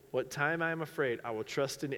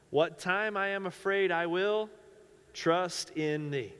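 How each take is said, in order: First: It is said very fast. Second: It is said at a normal pace.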